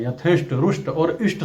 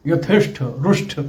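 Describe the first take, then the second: First: यथेष्ट and रुष्ट ending in plain unaspirated ट; correct plain ending. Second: यथेष्ट and रुष्ट ending in aspirated ठ; wrong aspirated ending. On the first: Teacher modelling the correct plain ending. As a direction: finish रुष्ट with a crisp plain ṭ, no breath. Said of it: "सही शब्द हैं". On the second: Teacher quoting the mistaken aspirated ending. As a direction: end रुष्ट with a breathy ṭh. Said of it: "कहना भी गलत है". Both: Shown as a demonstration.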